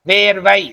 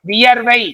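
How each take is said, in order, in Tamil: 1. வார்த்தை 'vē' என்ற ஒரே எழுத்தில் தொடங்குகிறது. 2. வார்த்தை 'viya' என்ற எழுத்துக்களில் தொடங்குகிறது. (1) "வேர்வை அப்படிங்கிறது என்னது? பேச்சு வழக்கு" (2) "வியர்வை அப்படிங்கிறது எழுத்து வழக்கு"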